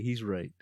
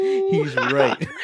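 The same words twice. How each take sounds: First: Soft, subdued imitation of a sad boy; quietly concede, as the crying son; retold sad child. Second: Loud, hammed-up shout with laughter; mock shouted replay. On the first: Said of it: "crying and be-, getting sad". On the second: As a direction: blow up the boy's line for laughs. Exaggerated replay of crying son's line.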